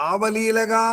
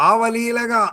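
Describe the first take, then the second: Both takes have the same delivery.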